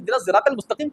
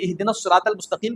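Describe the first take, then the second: First: Sirat begins with a Z sound. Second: Sirat begins with an S sound. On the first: "ज़ाद आता है" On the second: "उसको स्वाद पढ़ना नहीं आता"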